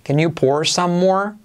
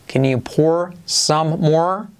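First: Said in the usual way. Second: Very slow, rising question tune on "more"; "can you pour some more?" with a long rising "more"; slow asking tune. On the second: Shown as a demonstration. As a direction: ask it as a real question, drawn out. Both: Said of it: "Repite conmigo".

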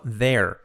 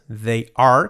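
First: "they're" run into one syllable, like "there"; contracted form. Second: "They are" as two separate words; full form. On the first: Teacher showing the contraction, one-syllable "they're". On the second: Teacher showing the uncontracted form, full "They are". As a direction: pronounce "They are" in full, "are" clearly sounded. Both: Shown as a demonstration. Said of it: "contraído".

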